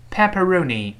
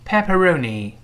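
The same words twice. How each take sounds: The two takes are said the same way.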